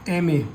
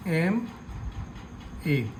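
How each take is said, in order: First: Said in the usual way. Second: एमए stretched out very slowly and softly as एम and ए; slow sounded-out pronunciation. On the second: Shown as a demonstration. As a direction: draw एमए out letter by letter, quietly. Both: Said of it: "तो आप इसका उच्चारण करेंगे एम और ए".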